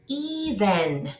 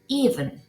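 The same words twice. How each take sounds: First: The second vowel is fully pronounced. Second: The second vowel is reduced almost away. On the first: The speaker calls it wrong. "no digo even" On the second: The speaker calls it right. "sino even"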